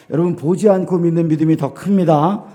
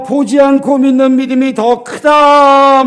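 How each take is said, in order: First: Said in the usual way. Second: Slow, raised, proclaiming Jesus' words; preacher voicing Jesus solemnly. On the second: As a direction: deliver it slowly as Jesus' verdict. Quoting Jesus to Thomas.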